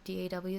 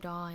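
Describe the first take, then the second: First: It is spelled out letter by letter. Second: It is said as a single word. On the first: It is clearly an acronym. The speaker calls it right. "so people know it's an acronym" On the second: It can be confusing to listeners. The speaker calls it wrong. "it's confusing"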